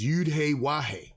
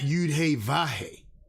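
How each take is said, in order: First: The last word begins with a W sound. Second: The last word begins with a V sound. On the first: The speaker calls it right. "the Wa is actually in the sacred name" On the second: The speaker calls it wrong. "not Yud He Vahe"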